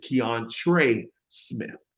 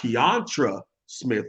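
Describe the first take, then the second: First: The first name ends in an 'ay' sound. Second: The first name ends in an 'ah' sound. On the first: The speaker calls it right. "it's Keontre Smith" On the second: The speaker calls it wrong. "it's not Keontra Smith"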